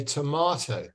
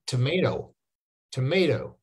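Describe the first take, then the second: First: Tomato with a long "mah" vowel; British tomato. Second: Tomato, US "may-do"; American tomato. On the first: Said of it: "In the U K, we say". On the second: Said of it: "in America, they say". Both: Shown as a demonstration.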